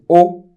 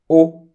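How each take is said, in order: First: The word is said on a high tone. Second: The same.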